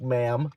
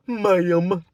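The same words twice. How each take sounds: First: Said in the usual way. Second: Loud, higher, drawn-out "Ma'am"; pointed ma'am. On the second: Retold or imitated. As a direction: land "Ma'am" hard as a mocking jab. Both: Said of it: "I hit her with a".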